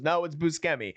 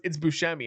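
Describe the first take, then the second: First: Buscemi said "boo-SKEM-ee" with a hard k; butchered name. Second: Said in the usual way. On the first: Retold or imitated. She wrongly corrects him, Buscemi said as "boo-SKEM-ee". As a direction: insist on Buscemi with SK instead of SH. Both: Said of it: "butchering his name".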